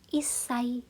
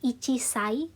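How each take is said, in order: First: It has a held double 's' with no 'chi'. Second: It has a full 'chi' syllable before 'sai'. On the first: The speaker calls it right. "ci-nya hilang ya... S-nya dua" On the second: The speaker calls it wrong. "ini bukan jadi ichisai"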